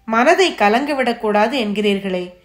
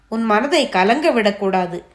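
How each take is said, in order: First: Understated grief, throwing the advice back; a mother's mildly anguished protest; welling sorrow. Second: Said in the usual way. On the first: A narrator's reading. Grieving mother answers the holy man, mildly sorrowful. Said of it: "துக்கம் பொங்கும் குரலில் சொன்னாள்". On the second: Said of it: "என்று சிவனடியார் ஆரம்பித்த போது".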